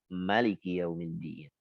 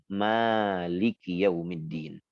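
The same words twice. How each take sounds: First: The first vowel of Maliki is kept short. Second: The first vowel of Maliki is drawn out long. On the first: It follows the reading of the other reciters. "maka dibaca pendek" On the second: It follows the reading of one group of reciters. "membacanya dengan panjang"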